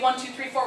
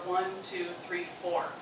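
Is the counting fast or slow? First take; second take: fast; slow. First: The counting is fast. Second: The counting is slow.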